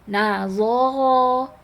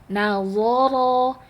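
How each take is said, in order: Both takes have the same delivery.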